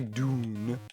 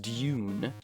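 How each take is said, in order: First: It begins with a plain d sound, 'doon'. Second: It begins with a d plus y sound, 'dyoon'. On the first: This is how British speakers do not say it. "y'all don't say Dune" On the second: This is how British speakers say it. "Surely, it's Dune"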